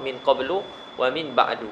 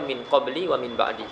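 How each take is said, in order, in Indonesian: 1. Kedua kata berakhir dengan vokal u pendek. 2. Kedua kata berakhir dengan vokal i pendek. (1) "Qiraah kita baca apa?" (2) "ada qiraah baca min qabli wa min ba'di"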